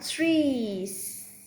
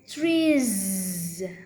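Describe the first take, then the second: First: The word ends in a hissing s sound. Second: The word ends in a buzzing z sound. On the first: The speaker calls it wrong. "It's not trees" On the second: The speaker calls it right. "add voice Z"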